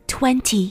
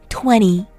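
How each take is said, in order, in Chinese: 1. t音发得很清楚。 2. n之后的t音被省略了。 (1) "与其说20" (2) "美式英语的发音会是20"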